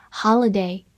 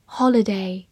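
First: "holiday" in an American accent; American pronunciation. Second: Said in the usual way. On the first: Shown as a demonstration. Teacher showing learners the word "holiday", American pronunciation. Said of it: "美式发音".

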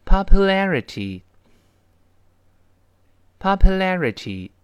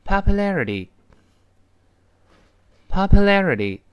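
First: Slow, drawn-out syllable by syllable, loud; slow practice read of popularity for students; read slowly. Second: Read a bit faster. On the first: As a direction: slowly sound out popularity with stress on la. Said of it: "那先慢慢读起来". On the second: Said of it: "我们再快一点读". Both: Shown as a demonstration.

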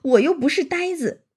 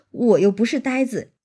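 First: Higher-pitched, lightly voiced smiling protest; eager smiling protest. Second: Said in the usual way. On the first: A narrator's reading. Xue Pan assuring Xianglian he is no fool, eager smiling protest. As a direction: protest with a quick smile, pitched up. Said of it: "薛蟠忙就笑道".

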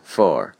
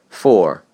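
First: "for" said as the phrase's reduced form; altered form. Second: Said in the usual way. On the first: Shown as a demonstration. Teacher showing how the word changes, reduced "for". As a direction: say "for" as it sounds inside running speech. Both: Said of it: "For被读成for".

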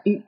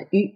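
First: "U" held longer, lips rounded. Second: "U" cut shorter as a semivowel. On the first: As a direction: draw out the French "U". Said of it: "一种是比较长的U". (把“U”读长一点) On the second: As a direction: say the French "U" briefly. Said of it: "一种是比较短的U". (把“U”读短一点) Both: Shown as a demonstration.

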